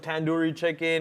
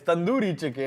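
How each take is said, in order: First: Tandoori is said with an anglicized pronunciation. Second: Tandoori is said with an Indian-style pronunciation. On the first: The speaker calls it wrong. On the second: The speaker calls it right.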